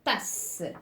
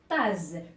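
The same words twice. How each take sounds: First: The middle consonant is a hissing s sound. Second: The middle consonant is a buzzing z sound. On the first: The word is spelled with a double s. "je vois deux S et j'entends le, euh, le S toujours" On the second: The word is spelled with a single s. "si je supprime euh, un S et j'écris le E... Il va se prononcer tasse"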